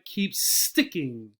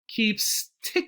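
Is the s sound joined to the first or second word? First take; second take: second; first. First: The s joins the second word as a strong 'st'. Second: The s ends the first word, without a strong 'st'.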